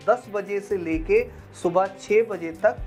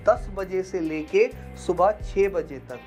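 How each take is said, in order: Both takes have the same delivery.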